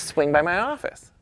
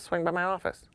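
First: High, rising, insistent imitated repeat; repeated invitation. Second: Softer, higher, casual imitated invitation; offhand invitation. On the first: Camera executive repeating himself to puzzled photographer, insistent invitation. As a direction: repeat it higher, with a lifted ending. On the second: Camera executive inviting the photographer over, offhand and soft. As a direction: toss it off softly, imitating him.

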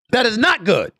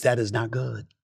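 First: High, emphatic condemnation; raised-pitch insistence; emphatic verdict. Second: Low, soft final verdict; hushed, lowered disapproval; subdued verdict. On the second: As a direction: drop the voice low and quiet. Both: Real, not acted. Repeats verdict, raised then dropped.

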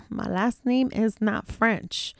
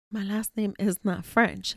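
First: Slow, firm and deliberate, every word weighted; emphatic denial. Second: Said in the usual way. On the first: Real, not acted. Host to listeners, slow firm insistence. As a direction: lay down the law on "My last name is not French.". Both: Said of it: "And I meant that shit".

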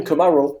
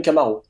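First: Camaro said the English way; English pronunciation. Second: Camaro said the French way; French pronunciation. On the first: Car expert showing what nobody says, English pronunciation. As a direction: say Camaro as English "kuh-MAR-oh". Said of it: "qui sont dits à l'anglaise". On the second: Car expert showing what everyone says, French pronunciation. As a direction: say Camaro as French "ka-ma-ro", even syllables. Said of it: "d'autres qui sont dits à la française". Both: Shown as a demonstration.

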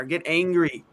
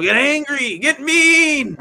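First: Said in the usual way. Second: Loud, raised-pitch urging, drawn out; exasperated shout. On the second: Retold or imitated. Fan urging the team to toughen up, exasperated shout.

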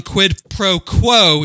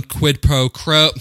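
First: "quid pro quo" slow and corrected; careful quid pro quo. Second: "quid pro quo" slipping into "quid pro crow"; botched quid pro quo. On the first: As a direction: stretch out "quo" with a clean kw. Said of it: "I took Latin class for four years". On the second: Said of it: "I can't, I, I still can't say it". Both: Real, not acted.

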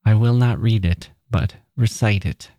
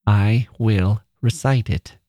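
First: Said in the usual way. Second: Slow, firm "recite" said with a falling tone; stubborn repeat. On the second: A narrator's reading. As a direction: dig in on "recite", slowly and firmly. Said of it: "she repeated".

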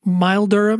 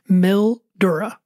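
First: "Mildura" said MILE-der-a, long i as in mile; second try at "Mildura", mile-durr-uh. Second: "Mildura" said MIL-dor-a, short i as in mill; first try at "Mildura", mill-DOOR-uh. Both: Shown as a demonstration. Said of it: "never said that out loud".

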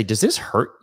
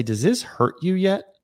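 First: Said in the usual way. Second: "yet" drawn out higher, slow question; "Does this hurt you yet?" asked slowly and higher, stressing "yet". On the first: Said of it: "Or say". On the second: Shown as a demonstration. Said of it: "Instead, say".

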